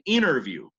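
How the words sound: The t after the n is dropped. "For an American"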